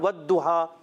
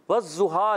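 First: The letter is pronounced like a plain d. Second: The letter is pronounced like a z sound. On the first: "اس کو دال بھی نہیں پڑھنا" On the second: "زواد پڑھنا یہ حرام ہے"

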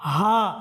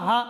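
First: The vowel is held for a full beat. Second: The vowel is cut short. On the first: The speaker calls it right. "এক আলিফ সমপরিমাণ টান হবে" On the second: The speaker calls it wrong. "আলিফটা চলে যাবে"

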